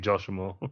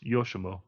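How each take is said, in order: First: The name begins with a J sound. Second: The name begins with a Y sound. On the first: This is how the other person says it. The speaker calls it wrong. "you say Joshimo" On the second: This is the correct form of the name. The speaker calls it right. "it's Yoshimo"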